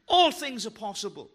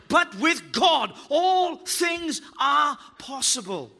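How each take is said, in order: First: Said in the usual way. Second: Slow, loud proclamation; every word shouted out slowly; preaching shout. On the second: Real, not acted. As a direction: drive it home to the congregation. Preacher's climax.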